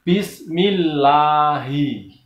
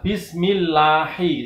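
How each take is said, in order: First: The final syllable is thick, from the throat. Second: The final syllable is thin, like hei. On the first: The speaker calls it right. "Yang benar adalah" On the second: The speaker calls it wrong.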